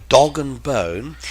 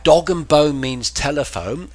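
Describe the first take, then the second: First: Dog and bone said slow, rising on dog; slow rising teacher stress. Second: Dog and bone stressed, rising on dog, then explained; teacher stress. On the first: Teacher repeating Cockney slang for viewers, slow rise. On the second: Teacher explaining Cockney slang to chat, stress. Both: Shown as a demonstration.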